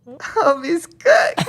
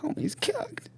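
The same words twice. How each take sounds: First: High, very slow stretched verdict; slow high teasing call; drawn-out sing-song. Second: Breathy whispered aside; hushed mock verdict; whispered joke. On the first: Pretend.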